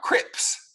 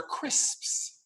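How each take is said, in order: First: Crips with no S before the P; wrong crips. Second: Crisps whispered slowly, every S clear; correct crisps. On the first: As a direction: say crips, skipping the S. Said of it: "These are not crips". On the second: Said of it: "these are crisps". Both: Shown as a demonstration.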